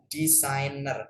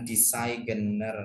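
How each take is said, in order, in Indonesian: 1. Huruf G tidak dibaca dalam kata designer. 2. Huruf G dibaca dalam kata designer. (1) "huruf G-nya nggak usah dibaca" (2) "bukan designer"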